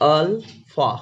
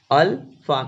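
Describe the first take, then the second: First: Slow, drawn-out "अल्फा" sounded out as aal-pha; careful pronunciation. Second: Said in the usual way. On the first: Shown as a demonstration. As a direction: spell out "अल्फा" slowly, syllable by syllable. ("अल्फा" को धीरे-धीरे, एक-एक अक्षर साफ़ बोलें) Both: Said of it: "इसको पढ़ने का क्या तरीका है".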